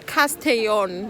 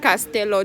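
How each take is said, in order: First: The double L sounds like a Y. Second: The double L sounds like an L. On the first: The speaker calls it right. "the place name is Castellon" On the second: The speaker calls it wrong. "not Castello. Don't read it as Castello"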